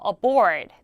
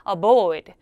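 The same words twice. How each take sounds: First: The R in board is pronounced. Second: The R in board is dropped. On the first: This is the American way of saying it. "a board 대신에" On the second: This is the British way of saying it. "영국 사람이 R 발음을 죽여서"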